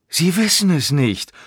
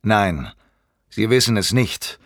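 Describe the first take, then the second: First: High mocking echo of "Sie wissen es nicht"; scornful, drawn-up taunt; sneering. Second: Firm, curt contradiction; gruff denial, little pitch movement; brusque. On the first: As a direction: throw it back in derision. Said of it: "Stainsforth grinste höhnisch". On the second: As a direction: cut him off sternly. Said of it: "er sagte schroff". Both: A narrator's reading.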